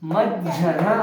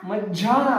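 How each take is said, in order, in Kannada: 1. ಜೋಡಿ ವ್ಯಂಜನದ ನಂತರದ ಸ್ವರ ಹ್ರಸ್ವ. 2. ಜೋಡಿ ವ್ಯಂಜನದ ನಂತರದ ಸ್ವರ ದೀರ್ಘ. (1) "ಮ ಝ ನ ಮಜ್ಜನ" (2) "ಮಜ್ಜಾನ ಅಲ್ಲ"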